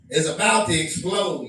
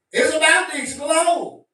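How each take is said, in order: First: Said in the usual way. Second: The warning said again higher and louder; emphatic repeat. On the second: Real, not acted. Warning his viewers that religion will explode, said again higher and louder. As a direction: hammer the warning home.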